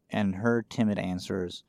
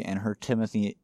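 First: "timid" said properly as TIM-id; "timid answers" read correctly after the slip; corrected reading. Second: "Timothy" said as the name TIM-o-thee; "Timothy" read out instead of timid; misread word. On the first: Corrects the misread word. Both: Real, not acted.

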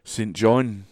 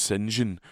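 First: Said in the usual way. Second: St John said as SIN-jun, two quick syllables; Sinjun pronunciation. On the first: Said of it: "pronounced St John". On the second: Shown as a demonstration. Reviewer giving the detective's name the right way: St John as Sinjun. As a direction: say St John like Sinjun, not Saint John.

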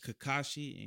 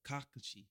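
First: Said in the usual way. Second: Kakashi led by a strong KAH; Japanese-style pronunciation. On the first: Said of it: "It's the same thing". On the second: Shown as a demonstration. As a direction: stress the first syllable of Kakashi, KAH-kuh-shee. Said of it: "it's just different".

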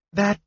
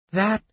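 First: Short, level hesitant start; flat and unsure. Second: Halting, rising hesitant start. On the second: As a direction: trail up, unsure. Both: Acted. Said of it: "the Kender said hesitantly".

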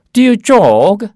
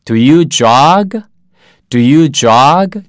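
First: "jog" with a rounded British "o"; higher-pitched British-style "jog", vowel like Korean "조"; British pronunciation. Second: "jog" with an open American "ah" vowel; slow American "Do you jog", vowel wide open; American pronunciation. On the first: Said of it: "jog 그러면은 영국식 발음이 될 테니까". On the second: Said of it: "jog나 run 둘 다 미국식 발음이고요". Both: Shown as a demonstration.

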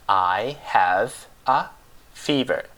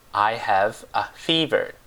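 First: "I have a fever" drawn out, pause between each word; slow word-by-word model. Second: Said in the usual way. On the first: Shown as a demonstration. Teacher repeats for learners how to report a temperature, slow separated "I have a fever".

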